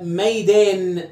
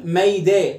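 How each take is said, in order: First: "ميدان" stretched slowly onto a held n; final nun sounded. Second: "ميدا" left open on the long vowel, no n; nun removed. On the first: Teacher tests the word's original nun, final n held. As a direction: draw out "maydaan", sounding the last n. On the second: Teacher shows the word breaks, final nun dropped. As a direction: say "maydaa" with the last n missing. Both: Shown as a demonstration. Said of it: "شيل النون".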